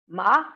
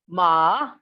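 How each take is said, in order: First: The pitch rises from mid to high. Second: The pitch dips low then rises. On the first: It means hemp. "with high rising pitch" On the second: It means horse. "with a low dipping, ... falling then rising"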